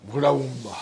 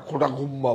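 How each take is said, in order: First: ঘোড়া গুম্বা with a breathy bh start, bhuda gumba, a little lower; trying the Odia name. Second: Said in the usual way. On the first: Shown as a demonstration. Seller on live video tries the Odia border name carefully. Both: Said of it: "উচ্চারণে হয়তো ভুল হবে".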